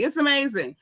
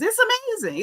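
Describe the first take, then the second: First: Said in the usual way. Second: High-pitched sarcastic marvel; incredulous squeal on AMAZING, put on; mock amazement. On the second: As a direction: swoop way up in disbelief.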